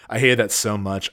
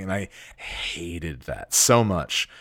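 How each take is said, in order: First: Said in the usual way. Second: Hated that so much, drawn out slowly with weight on so; lower, slow, dwelling on the resentment; slow emphatic. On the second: Real, not acted. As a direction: stretch "so" as if reliving it.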